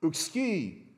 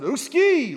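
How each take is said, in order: First: Just name the word uxki; plain Greek uxki. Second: "Uxki" barked out much higher and louder; emphatic uxki. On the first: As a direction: Greek emphatic no, said calmly. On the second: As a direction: fire "Uxki" like a hard refusal. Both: Shown as a demonstration. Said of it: "built into the way you pronounce it".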